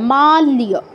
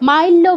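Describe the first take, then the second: First: The 'l' is followed by a 'y' glide. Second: The 'l' is doubled with no 'y' glide. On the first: The speaker calls it right. "ল যুগ ইয় লিয়" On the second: The speaker calls it wrong. "মাল্য বলা যাবে না"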